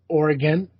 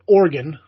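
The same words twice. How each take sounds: First: It keeps a fuller middle, unlike 'organ'. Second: It is squeezed to sound like 'organ'. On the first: It is a compromise version. "I'll do that. I'll meet them halfway" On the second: This is how locals say it. "I'm still not calling it Oregon, like you know, like a liver"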